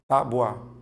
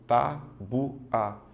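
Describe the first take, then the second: First: It is said as two syllables. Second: It is split into three separate syllables. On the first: The speaker calls it right. "Só que você não faz assim" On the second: The speaker calls it wrong. "você vai tentar fazer assim"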